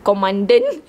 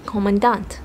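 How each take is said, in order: First: Commandant with an English -den ending, like "co-MAN-den"; self-taught mispronunciation. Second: Commandant as "KO-mən-dant", full open last syllable; correct pronunciation. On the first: Reader admitting how she called it, mispronounced commandant. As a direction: say commandant as "ko-MAN-dən", voice rising. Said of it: "when I read it, I called it". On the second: Reader echoing the checked pronunciation, corrected commandant. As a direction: say commandant evenly, ending in a clear "dant". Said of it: "how it's pronounced". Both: Shown as a demonstration.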